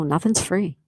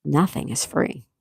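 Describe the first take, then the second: First: Said in the usual way. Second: Slow, word-by-word emphasis; slow and deliberate. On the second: Real, not acted. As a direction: spell it out slowly for the listener. Spelling it out slowly after question.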